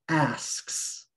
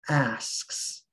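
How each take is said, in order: Both takes have the same delivery.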